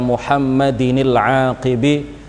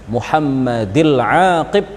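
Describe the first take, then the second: First: The first word ends with an extra n sound. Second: The first word ends without an n sound. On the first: The speaker calls it wrong. "Kalau dibaca Muhammadinil aqibi nanti akan kacau, wazannya akan kacau" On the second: The speaker calls it right. "Mengkasrah kata lafadz Muhammadi tanpa tanwin"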